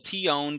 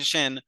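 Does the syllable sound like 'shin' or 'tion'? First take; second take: tion; shin. First: The syllable is said slowly and fully as 'tion'. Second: The syllable is said quickly, reduced to 'shin'.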